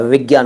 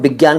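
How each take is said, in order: First: It begins with a v sound. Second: It begins with a b sound. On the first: The speaker calls it right. "विज्ञान होता है वे वे" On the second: The speaker calls it wrong. "विज्ञान कुछ नहीं होता"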